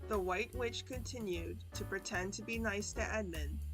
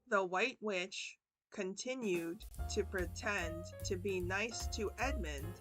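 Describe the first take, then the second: First: It is spoken at a faster, normal speed. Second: It is spoken slowly and deliberately. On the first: "one time kind of normal speed. Just a little faster" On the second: "two times slow"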